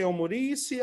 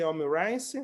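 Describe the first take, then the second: First: "omurishi" ending in a shee sound; "omurishi", ending like "she"; variant pronunciation. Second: "omurice" ending like English rice; "omurice", last syllable rhyming with nice; variant pronunciation. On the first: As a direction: say "omurishi" with the last syllable as shee. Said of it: "Some people say omurishi". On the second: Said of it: "other people say omurice". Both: Shown as a demonstration.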